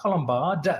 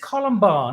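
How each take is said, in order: First: The word ends with a D sound. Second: The word ends without a D sound. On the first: The speaker calls it wrong. "not Colombard with a D" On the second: The speaker calls it right. "It is Columbar"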